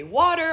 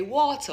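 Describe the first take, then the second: First: Water with a clear r at the end, American-style. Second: Water with the end r dropped, Jamaican-style; Jamaican Patois water. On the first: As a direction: say water the American way, ending on a full r. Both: Shown as a demonstration. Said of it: "I have these two different routes".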